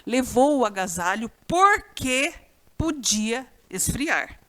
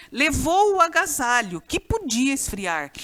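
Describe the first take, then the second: First: "porque" stretched out, then a pause; stress on PORQUE. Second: Said in the usual way. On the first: Shown as a demonstration. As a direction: lean on "porque" as the substituted word. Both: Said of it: "Você pode pôr o pois no lugar ou porquê".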